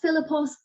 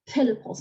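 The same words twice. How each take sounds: First: The first consonant is not an aspirated stop. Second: The first consonant is an aspirated voiceless stop. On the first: The speaker calls it wrong. "not Philippos" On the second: The speaker calls it right. "these stops are all voiceless. Voiceless aspirates"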